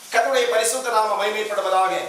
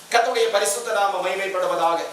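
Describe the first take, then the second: The two takes are said the same way.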